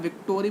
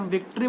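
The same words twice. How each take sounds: First: "विक्टोरी" with "toh" inserted; vik-toh-ree for "विक्टोरी"; mispronounced victory. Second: Said in the usual way. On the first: Shown as a demonstration. Teacher showing how others say words differently, mispronounced "विक्टोरी". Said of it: "हर word को अलग अलग". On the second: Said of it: "जैसे हम विक्ट्री बोलते हैं".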